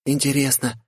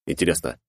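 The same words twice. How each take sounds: First: Put-on high, wondering girl voice. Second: Said in the usual way. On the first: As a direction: muse aloud as a young girl. Gloria wondering aloud. (высокий девичий голос)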